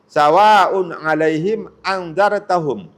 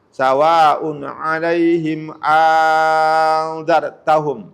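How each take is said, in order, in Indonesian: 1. Vokal pertama dari anzartahum dibaca pendek. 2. Vokal pertama dari anzartahum dibaca panjang. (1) "hamzah keduanya itu tidak ada dan tidak diganti dengan alif" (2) "hamzah yang kedua itu diganti menjadi a alif"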